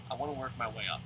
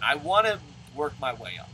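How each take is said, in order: First: The same line again, softer to himself; quiet repeat. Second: Said in the usual way. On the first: Real, not acted. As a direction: murmur it again as a private reminder.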